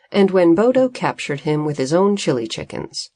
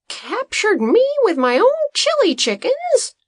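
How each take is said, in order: First: Said in the usual way. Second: Much higher, louder outraged question; outraged Green. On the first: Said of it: "Green repeated out loud". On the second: A narrator's reading. Farmer learning he was locked up by his own chickens, outraged high question. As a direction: rise in disbelief to a fever pitch. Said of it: "his outrage and voice reached a fever pitch".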